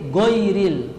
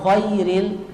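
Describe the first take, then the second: First: The first sound is a plain hard g. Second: The first sound is a kh sound. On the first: "tidak ada rakhawahnya dibaca g" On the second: "ghain dirubah menjadi kha"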